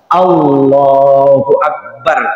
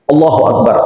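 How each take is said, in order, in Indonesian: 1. Frasa itu diucapkan pelan dengan lafaz Allah yang dipanjangkan. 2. Frasa itu diucapkan cepat dan dipotong pendek. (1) "lafaz Allahnya dipanjangin" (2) "begitu cepatnya takbir itu Pak, pendek"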